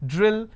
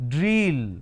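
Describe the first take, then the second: First: The vowel is a short lax sound. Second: The vowel is not a short lax sound. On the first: The speaker calls it right. "These are the short vowel E sound" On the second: The speaker calls it wrong. "No, those are wrong pronunciation"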